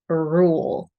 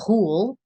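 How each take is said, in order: First: The R uses rounded lips and the tongue held back. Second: The R sound is made in the throat. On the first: The speaker calls it right. "So rule, rule" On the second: The speaker calls it wrong. "Nothing in the throat. We don't want to say rule"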